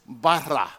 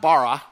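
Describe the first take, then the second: First: The r sound is rolled with the tongue. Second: The r sound is plain, not rolled. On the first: The speaker calls it right. "You got to roll your tongue if you can" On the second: The speaker calls it wrong. "It's not bara"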